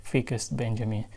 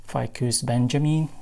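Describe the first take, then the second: First: "Ficus" said softly as FEE-kus; FEE-kus pronunciation. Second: "Ficus" said as FYE-kus; FYE-kus pronunciation. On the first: Vlogger guessing the plant's name for viewers, "Ficus" as FEE-kus. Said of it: "if I'm wrong, please leave it". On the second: Vlogger naming her new plant, "Ficus" as FYE-kus. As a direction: say "Ficus" with a long eye vowel, FYE-kus. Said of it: "I'm just assuming it is". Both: Real, not acted.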